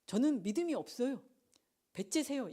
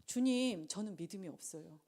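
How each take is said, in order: First: Higher-pitched mock defiance; brazen refusal. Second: Humble confession. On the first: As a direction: act out a cheeky, take-it-or-leave-it admission. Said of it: "이게 아니라". (배째라는 식으로 뻔뻔하게 흉내) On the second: Acted. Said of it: "똘똘한 학생은 어떻게 해야 될까요". (주님께 나직이 털어놓는 겸손한 고백)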